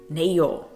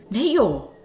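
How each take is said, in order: First: It sounds like disagreeing with what was said. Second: It sounds surprised by what was just said.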